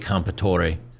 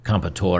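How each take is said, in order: First: The final E is pronounced as a syllable. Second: The final E is silent.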